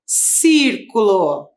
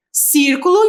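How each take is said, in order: First: "círculo" spelled out slowly, syllable by syllable, falling at the end; slow dictation. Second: "círculo" at normal pace, leaning on "cír", rising at the end; stressed syllable shown. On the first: Teacher dictating a word to the class, slowly syllable by syllable. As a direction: dictate "círculo" slowly so students can write it. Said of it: "Primeira palavra". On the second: Teacher showing students the stressed syllable, rising tune. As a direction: point out the strong syllable in "círculo". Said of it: "Agora sim". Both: Shown as a demonstration.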